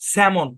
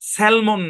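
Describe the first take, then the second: First: The L sound is silent. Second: The L sound is pronounced. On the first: The speaker calls it right. "এখানে এল টা silent আরকি" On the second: The speaker calls it wrong. "স্যালমন না"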